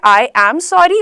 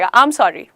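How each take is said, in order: First: 'I am' is said slowly as two full words. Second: 'I am' is said fast, merged like 'aam'. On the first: "एक होता है आई एम sorry" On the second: "आम आम बोलते हैं, mango का आम। तो ये जल्दी से"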